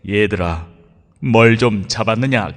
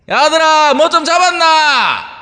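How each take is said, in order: First: The call is said softly, like a faint voice. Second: The call is shouted loudly in a dialect. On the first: The caller is far away and hard to hear. The speaker calls it wrong. "아련한 목소리로" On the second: The caller must shout to be heard from afar. The speaker calls it right. "캐 갖고는 안 들릴까"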